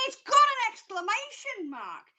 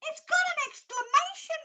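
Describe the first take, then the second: First: Excited. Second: Thrilled repeat, climbing higher; more excited. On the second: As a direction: pitch jumps much higher on the repeat. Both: Real, not acted. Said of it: "I get really excited".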